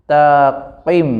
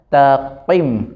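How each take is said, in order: No difference in how they are said.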